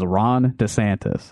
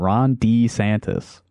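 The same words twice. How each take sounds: First: The vowel in 'De' is short. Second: The vowel in 'De' is a long E. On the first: "Everyone I've ever heard say that name says Ron DeSantis" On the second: "the long E sound"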